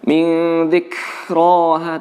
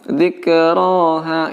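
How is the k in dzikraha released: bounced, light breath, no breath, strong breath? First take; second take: strong breath; bounced. First: The k is released with a lot of breath. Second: The k is released with a bouncing sound. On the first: "jangan terlalu banyak" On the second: "malah dipantulkan ... itu juga salah"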